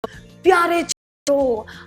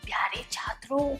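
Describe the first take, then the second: First: It is shouted very loudly. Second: It is whispered very softly. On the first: The speaker sounds aggressive and annoys listeners. "जोर से बोलते हैं, चिल्लाकर" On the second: The speaker sounds fearful or lacking confidence. "धीमी आवाज में फुसफुसा कर"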